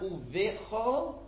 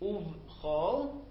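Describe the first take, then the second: First: A short vowel separates the v and ch. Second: The v runs straight into ch, no vowel. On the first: The speaker calls it wrong. "so it's not uvechol" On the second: The speaker calls it right. "The shva is shvanach, it's resting"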